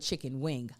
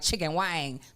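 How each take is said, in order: First: The vowel is an 'i' sound, like wing. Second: The vowel is an 'a' sound, like wang. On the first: The speaker calls it right. "but chicken wing" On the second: The speaker calls it wrong. "It's not thing like chicken wang"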